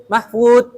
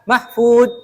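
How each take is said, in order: First: It ends in a stopped d sound. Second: The same.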